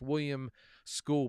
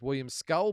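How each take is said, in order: First: The surname rhymes with cool, a long vowel. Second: The surname rhymes with dull, a short vowel. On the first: This is how the name is said in the commentary. The speaker calls it right. "but it's" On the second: This is how the speaker assumed the name was said. The speaker calls it wrong. "I was under the impression it was"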